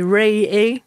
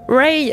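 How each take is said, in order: First: The name is said as two syllables. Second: The name is said as one syllable. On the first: The speaker calls it right. "elle-même dit Ray A" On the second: The speaker calls it wrong. "je le prononce très mal"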